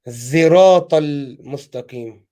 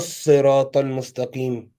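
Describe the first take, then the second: First: The word begins with a z sound. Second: The word begins with an emphatic, heavy s sound. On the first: "pronounced as زراط المستقيم. Z- Zain" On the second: "this word is written in Arabic as alif lam and then صاد"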